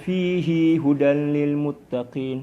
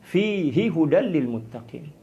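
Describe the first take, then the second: First: The final vowel of fihi is lengthened. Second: The final vowel of fihi is short. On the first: It follows a different reading tradition. "Dipanjangkan huruf hinya" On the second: It follows the reading tradition the speaker uses. "tidak membaca panjang fihi"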